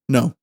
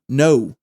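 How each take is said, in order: First: The word is said at normal speed. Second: The word is drawn out slowly. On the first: "say the word no" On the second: "Now say it slower"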